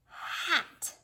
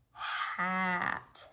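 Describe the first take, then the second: First: "Hat." swooped high and breathy; roller coaster read. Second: Said in the usual way. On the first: Shown as a demonstration. Teacher roller coaster reads the new word, swooping up high. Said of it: "Let's roller coaster read it". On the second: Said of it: "let's blend it".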